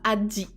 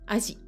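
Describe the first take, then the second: First: The middle consonant has a d sound. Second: The middle consonant has no d sound. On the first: The speaker calls it wrong. "Ce sera pas Adi, c'est bizarre" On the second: The speaker calls it right. "les japonais vont plutôt le prononcer Aji, sans le D"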